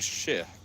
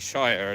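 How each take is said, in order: First: The ending is shortened to a weak 'sher' sound. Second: The ending is said fully, like the word shire. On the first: It is the usual pronunciation. "instead of shire" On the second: It sounds rural. "I tend to pronounce things fairly phonetically"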